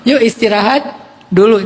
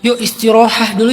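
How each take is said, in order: First: The middle word ends with a t sound. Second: The middle word ends with a breathy h sound. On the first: It uses the everyday Indonesian form of the word. The speaker calls it right. "Jadi mending yuk istirahat dulu" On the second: It keeps the original Arabic form of the word. The speaker calls it wrong. "Kan susah kalau kita bilang yuk istirahah dulu"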